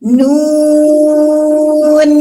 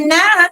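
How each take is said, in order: First: It is a lengthened syllable ending in an n. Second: It is a short syllable ending in a vowel. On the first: The speaker calls it right. "Kita bunyikan nama asli huruf" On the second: The speaker calls it wrong. "Salah, teman-teman. Salah besar"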